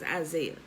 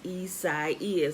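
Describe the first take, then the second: First: The name is pronounced like the familiar Isaiah. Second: The name is pronounced in an unfamiliar way. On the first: This is how the speaker thinks it should be said. The speaker calls it right. "it's Isaiah" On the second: This copies how newscasters say it. The speaker calls it wrong. "which they wrongly pronounce"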